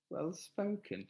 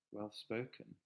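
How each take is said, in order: First: Higher-pitched, disbelieving repeat; taken aback, voice lifting; incredulous echo. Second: Said in the usual way. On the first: Real, not acted. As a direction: echo it back as if you can't believe it. Repeats comment back in disbelief.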